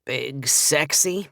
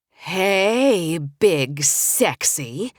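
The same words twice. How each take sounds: First: Slow, bored drawl on Big Sexy; unimpressed, dragging out Sexy; bored friend unimpressed by the nickname, slow drawl; boring drawl. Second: Slow, drawn-out forced cheer on Big Sexy; greeting a grumpy friend on the phone with forced enthusiasm. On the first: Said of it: "in his usual boring drawl". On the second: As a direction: muster every bit of pep you can, stretching it out. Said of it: "with as much enthusiasm as I could muster". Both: Acted.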